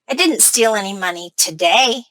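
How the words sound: The word today carries the main stress. The speaker may steal on other days. "My stress is on today"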